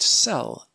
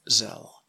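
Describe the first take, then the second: First: The name begins with an s sound. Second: The name begins with a z sound.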